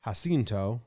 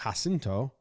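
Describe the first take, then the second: First: The name begins with a soft J sound. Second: The name begins with a soft J sound.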